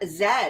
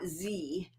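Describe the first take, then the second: First: The letter is named the Canadian way. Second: The letter is named the American way. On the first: "we say le- Z" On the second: "not Z"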